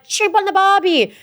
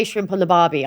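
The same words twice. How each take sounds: First: High, slow mock Aussie catchphrase; hammed-up Australian accent. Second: Said in the usual way. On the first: Mocking what producers wanted said, hammed-up Australian accent. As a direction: exaggerate the Australian twang, pitched high. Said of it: "they wanted us to be like". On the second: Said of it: "we don't say shrimp on the barbie".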